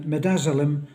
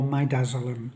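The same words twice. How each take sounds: First: Midazolam with a short "mih" opening; first pronunciation. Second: Midazolam with a long "my" opening; alternative pronunciation. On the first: Speaker offering viewers one pronunciation of a drug name, short-i midazolam. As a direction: say midazolam starting "mid", short i. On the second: Speaker offering viewers the other pronunciation of a drug name, "my"-dazolam. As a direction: say midazolam starting like the word "my". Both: Shown as a demonstration. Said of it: "to pronounce it".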